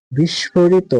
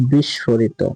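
First: Said in the usual way. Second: বিস্ফোরিত lager en langzaam uitgesproken als "বিশোরিতো"; বিস্ফোরিত zorgvuldig als biʃorito uitspreken; correcte uitspraak. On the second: Shown as a demonstration. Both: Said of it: "এগুলো হচ্ছে বানান এবং পাশে হচ্ছে উচ্চারণ".

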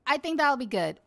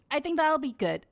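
No difference in how they are said.

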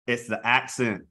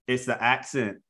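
No difference in how they are said.

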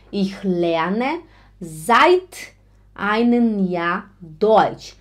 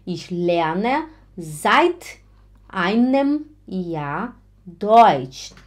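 First: Slow, careful seit with a rising hold; teacher modelling seit slowly; very slow model. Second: Slow seit rising, then einem Jahr Deutsch; teacher repeating seit slowly; very slow model. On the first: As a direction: lay out the sentence slowly. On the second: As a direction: repeat the sentence slowly for the learner. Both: Shown as a demonstration. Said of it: "Atenção!".

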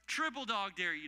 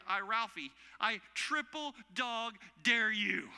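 First: Said in the usual way. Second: Loud, slow, drawn-out dare; hammed-up kid's dare, last word held long; Ralphie. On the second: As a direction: stretch each word into a big, higher challenge. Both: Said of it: "pull the Christmas story".

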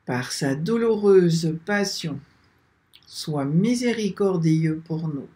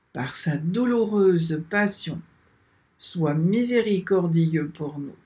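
Both takes have the same delivery.

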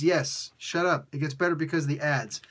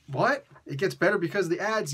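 First: Insistent comeback to a doubter; playful, matter-of-fact insistence; mock-firm retort. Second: Incredulous imagined questioner; put-on baffled challenge; mock disbelief. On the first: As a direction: shut down the objection firmly. Answers the imagined doubter. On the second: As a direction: question it as if you can't believe it. Acts out a disbelieving viewer.

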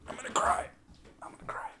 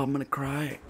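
First: Voiceless, fading to almost nothing; mock tearful whisper. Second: Higher, softer whine; mock tearful wail. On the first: Player laments losing progress, mock-tearful whisper. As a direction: squeeze it out in a tiny whisper. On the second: Player must redo it all, mock tearful whine. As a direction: whine it as if tears are coming.

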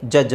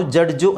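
First: ಜಡ್ಜ್ ending in a bare J sound; silent D. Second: ಜಡ್ಜು with a hard D and a final u; local pronunciation. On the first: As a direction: leave the D out of ಜಡ್ಜ್. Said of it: "ಡಿ silent ಮಾಡಿ". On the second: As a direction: sound the D and add u to ಜಡ್ಜು. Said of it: "ನಾವು ಜಡ್ಜು ಅಂತ ಹೇಳ್ತೀವಿ". (ಜಡ್ಜು ಎಂದು ಡಿ, ಉ ಸೇರಿಸಿ) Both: Shown as a demonstration.

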